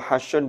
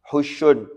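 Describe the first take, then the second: First: The first vowel is an open 'a'. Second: The first vowel is a rounded 'u'. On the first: "wa fathiha dan boleh di fathah" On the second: "Bidhammil ha'i kelawan dhammah"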